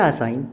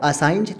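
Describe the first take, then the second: First: "असाइन" ending on N; correct pronunciation. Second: "असाइंज" with a J after N; wrong pronunciation. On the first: Teacher presenting the second word, correctly pronounced. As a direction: say "असाइन", G silent. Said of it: "असाइंज तो नहीं कह सकते". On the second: Teacher showing what cannot be said, mispronounced. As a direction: sound the G ending "असाइंज". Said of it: "तो नहीं कह सकते". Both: Shown as a demonstration.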